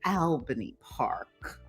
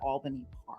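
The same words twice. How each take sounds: First: It is said in a Midwestern accent. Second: It is said in a New York accent.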